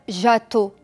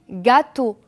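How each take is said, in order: First: It begins with a soft J sound. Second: It begins with a hard G sound. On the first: The speaker calls it wrong. "Je ne vais pas dire gâteau. Non, c'est faux" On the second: The speaker calls it right. "Je dis gâteau. Donc le son G"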